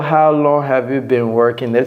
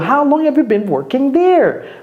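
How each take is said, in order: First: The question is asked flatly, without emotion. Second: The question is asked with lively, emotional intonation. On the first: The speaker calls it wrong. "Ne dites pas, ... C'est un peu bizarre" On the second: The speaker calls it right. "Prenez la peine de, d'avoir de l'émotion dans, dans votre voix"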